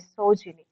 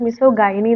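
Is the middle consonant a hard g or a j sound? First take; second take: j sound; hard g. First: The middle consonant is a j sound. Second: The middle consonant is a hard g, then 'eye'. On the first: The speaker calls it right. "പ്രൊനൗൺസ് ചെയ്യേണ്ടത് മിസോജിനി എന്നാണ് കേട്ടോ" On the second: The speaker calls it wrong. "മിസോഗൈനി എന്നല്ല കേട്ടോ ഇതിനെ pronounce ചെയ്യേണ്ടത്"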